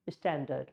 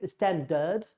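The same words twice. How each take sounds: First: Standard with a light uh in the second syllable; schwa standard. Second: Standard with a full second vowel; wrong full vowel. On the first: Teacher showing the right way. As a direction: say standard with the last vowel reduced. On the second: Teacher showing the wrong way. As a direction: say standard with an R colour at the end. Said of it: "we do not say standard". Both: Shown as a demonstration.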